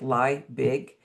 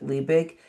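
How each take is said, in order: First: The name sounds like the English words 'lie big'. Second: The name does not sound like 'lie big'. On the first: This is how the spelling looks to English readers. The speaker calls it wrong. "Liebig looks like lie big" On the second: This is how the family actually says the German name. The speaker calls it right. "it is a German name, so I, we do pronounce it Liebig"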